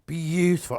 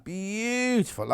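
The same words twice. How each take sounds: First: Said in the usual way. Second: Beautiful stretched slow and savoured; a slow, softer, admiring Beautiful; drawn-out beautiful. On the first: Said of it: "admiring the fabrics". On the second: Shown as a demonstration. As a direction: linger on Beautiful, slowly and softly. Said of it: "admiring the fabrics again".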